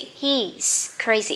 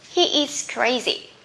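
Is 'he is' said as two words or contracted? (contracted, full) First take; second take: contracted; full. First: He is is contracted into one syllable. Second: He is is said as two full words. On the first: "So you can say he's crazy" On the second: "He is, we can say he's"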